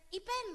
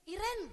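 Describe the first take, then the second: First: IPEN called high and loud, with a P; eastern-style call. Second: High, raised call of IREN. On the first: Someone from eastern Indonesia hailing her, calling out IPEN. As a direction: shout IPEN as easterners say the name. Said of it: "ada yang teriak". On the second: School friend spotting her somewhere, calling out IREN. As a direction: shout IREN to catch her attention. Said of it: "ada yang teriak gini". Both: Acted.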